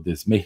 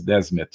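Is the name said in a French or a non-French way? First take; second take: French; non-French. First: The name is said with a French pronunciation. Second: The name is said without a French pronunciation.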